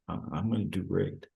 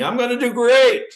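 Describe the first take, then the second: First: It is said very quietly and hesitantly. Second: It is said loudly, almost yelled.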